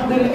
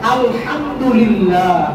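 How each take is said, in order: First: It is rushed, with vowel lengths distorted. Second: It is careful, with vowel lengths kept exact. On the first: The speaker calls it wrong. "এরকম না।" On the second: The speaker calls it right. "শুদ্ধ করে পড়েন"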